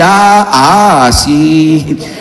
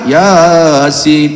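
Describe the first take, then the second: First: It is split into Ya and a separate Asin. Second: It is said smoothly as one word. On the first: The Latin spelling is read literally, letter by letter. "dibaca apa adanya" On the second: This is how most people say it. "Yang lain mah Yasin"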